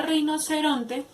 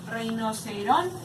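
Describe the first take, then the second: First: Said in the usual way. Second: RINOCERONTE slowly, drawn out up to RON, with TE held back; rinoceron... te, slow and deliberate; syllable-by-syllable demo. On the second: Shown as a demonstration. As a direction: stretch rinoceronte and lean on ron. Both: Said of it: "el acento en la palabra".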